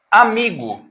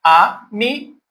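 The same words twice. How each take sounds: First: Said in the usual way. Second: "Amigo" as a, mi, go with pauses; three separate beats in "Amigo"; split into syllables. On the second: Shown as a demonstration. Teacher showing three syllables to students, "Amigo" syllable by syllable. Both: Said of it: "Três sílabas também".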